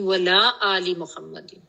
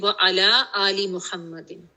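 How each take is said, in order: First: The vowel before 'la' is dropped. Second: The vowel before 'la' is kept. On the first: Do not send blessings on the family. The speaker calls it wrong. "बड़ी common mistake ... अला की बजाय ना ला बोल जाते हैं" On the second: Send blessings on the family. The speaker calls it right. "Correct करें"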